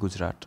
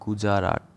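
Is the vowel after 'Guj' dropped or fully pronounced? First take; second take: dropped; fully pronounced. First: The middle vowel is dropped. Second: The middle vowel is fully pronounced. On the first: It is the usual everyday pronunciation. "কিন্তু আমরা বলি গুজরাট" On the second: It follows the written spelling. "গুজারাট যদি বলা হয়"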